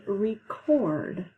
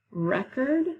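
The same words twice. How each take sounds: First: "record" slowly, as ree-CORD; stress on second syllable. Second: "Record" pitched up, as REK-erd; stress on first syllable. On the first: Teacher repeating the homograph pair, "record" stressed ree-CORD. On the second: Teacher repeating the homograph pair, "Record" stressed REK-erd. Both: Shown as a demonstration. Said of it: "another group of homographs".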